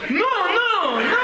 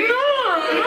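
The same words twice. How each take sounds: First: A very high, laughing "No, no, no"; squeaky no. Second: A very high, comic "No, no"; squeaky no. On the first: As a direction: squeak the refusal in a comic falsetto. His refusal, acted. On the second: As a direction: squeak it like a panicked bunch. Group's refusal, acted. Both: Retold or imitated.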